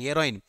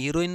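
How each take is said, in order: First: The first vowel sounds like 'eh'. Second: The first vowel sounds like 'ee'. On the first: It names the drug. The speaker calls it right. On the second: It names a female lead, not the drug. The speaker calls it wrong. "हिरोईन नाही"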